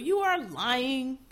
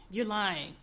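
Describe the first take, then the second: First: You are lying, drawn out slowly; slow, deliberate call-out; slow accusing. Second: Said in the usual way. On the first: Real, not acted. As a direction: spell out the accusation word by word.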